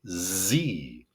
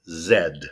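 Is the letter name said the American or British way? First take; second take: American; British. First: The letter is named the American way. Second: The letter is named the British way. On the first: "in the United States, we say Z" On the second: "In England, South Africa, Canada, India, Singapore, Australia, Ireland, they'll say Z"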